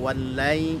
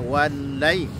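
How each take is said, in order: First: The doubled l is said softly and smoothly. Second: The doubled l is said with a sudden jolt. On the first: The speaker calls it right. "cukup lembut saja" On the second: The speaker calls it wrong. "apalagi dikejutkan"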